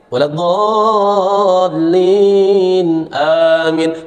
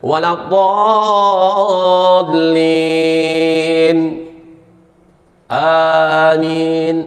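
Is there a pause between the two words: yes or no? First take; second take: no; yes. First: There is no pause before amin. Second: There is a pause before amin.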